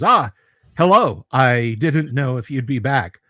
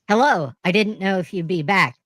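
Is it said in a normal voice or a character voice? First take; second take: normal voice; character voice. First: It is said in the speaker's normal voice. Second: It is said in Karen's put-on character voice.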